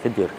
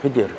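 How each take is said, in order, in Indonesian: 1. Nama itu diucapkan dengan vokal 'i': Khidir. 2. Nama itu diucapkan dengan vokal 'i': Khidir.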